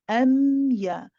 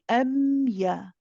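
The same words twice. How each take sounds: Both takes have the same delivery.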